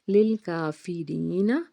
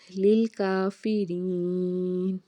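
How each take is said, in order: First: The word ends with a final short a vowel. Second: The word ends on the consonant n. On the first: The reading continues without stopping. "नून ज़बर ना" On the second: The reader stops at this word. "वक्फ करते हैं तो"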